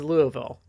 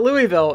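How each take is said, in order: First: It is said the local way. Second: It is said the outsider way. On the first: The speaker is from the area. The speaker calls it right. "it is Louisville" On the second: The speaker is not from the area. The speaker calls it wrong. "it is not Louisville"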